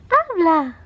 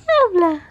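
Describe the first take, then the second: First: High coaxing call; coaxing baby talk. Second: Higher, louder coaxing call; coaxing baby talk. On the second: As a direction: coax harder, higher. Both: Acted.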